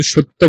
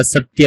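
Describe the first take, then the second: First: সত্য said "shotto", with sh and doubled t; Bengali pronunciation. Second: সত্য said "sat-ya", with a dental s; Sanskrit pronunciation. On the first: Teacher shows what to avoid, সত্য as "shotto". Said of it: "আমরা কিন্তু সত্য বলি না". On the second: Teacher corrects shotto, সত্য as "sat-ya". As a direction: sound the y in সত্য, "satiya". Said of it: "আমরা সত্য বলি". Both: Shown as a demonstration.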